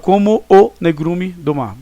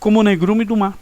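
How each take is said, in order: First: The two vowels are said apart with a pause. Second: The two vowels run together without a pause. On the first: The speaker calls it wrong. "você não fala como o negrume do mar" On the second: The speaker calls it right. "Sem interrupções em si"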